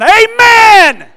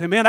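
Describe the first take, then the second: First: Huge, high, long-held AMEN falling at the end; booming revival shout. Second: Said in the usual way. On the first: Real, not acted. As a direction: belt out a drawn-out amen.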